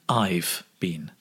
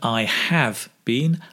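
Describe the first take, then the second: First: The words are said as a contraction. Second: The words are said in full, uncontracted.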